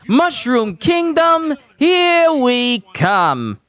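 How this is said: It has a light, barely noticeable Italian accent. "it's very light. His accent is very light"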